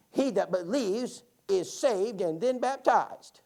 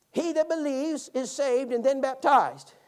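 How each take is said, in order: First: Put-on old lady voice. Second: Put-on higher, slow, louder old woman reciting; slow old lady recital. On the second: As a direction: imitate an old lady reciting a verse she thinks she knows, slowly. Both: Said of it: "would you read that again".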